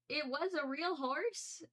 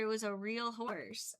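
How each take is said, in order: First: Disbelieving question. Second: Said in the usual way. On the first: Real, not acted. Realizing her mistake.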